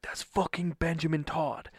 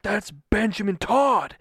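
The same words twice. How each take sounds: First: Restrained, urgent disbelief at spotting a star; starstruck hushed news. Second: Louder, higher, slow and emphatic; starstruck insistence. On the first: Husband tells wife he spotted his idol, contained excitement. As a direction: tell it urgently but keep it contained. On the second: Husband repeats sighting to disbelieving wife, excited insistence. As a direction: drive each word home in excited disbelief. Repeats it after wife's "What?. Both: Retold or imitated.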